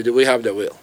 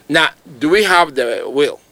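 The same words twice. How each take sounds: First: Repeats do we have the will lower, with a falling end. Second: Asks do we have the will with a rise at the end; rising question. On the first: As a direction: drive the question home, pitch down and falling. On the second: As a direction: pose the question openly, tune rising. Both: Shown as a demonstration.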